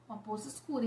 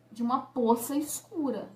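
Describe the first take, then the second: First: A dropped, hushed echo of the phrase; hushed repeat. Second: Said in the usual way. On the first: Retold or imitated. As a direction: let "Uma poça escura" fall away softly, much quieter. Dramatic repeat of dark pool.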